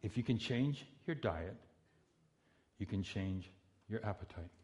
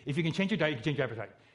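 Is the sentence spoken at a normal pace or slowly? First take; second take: slowly; normal. First: The sentence is spoken slowly and deliberately. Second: The sentence is spoken at a normal pace. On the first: "Say it slowly" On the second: "Say it again"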